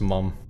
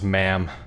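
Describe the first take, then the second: First: It is said with a British accent. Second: It is said with an American accent. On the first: "Simone is English, so it's pronounced mum" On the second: "if you were American, it would be pronounced ma'am"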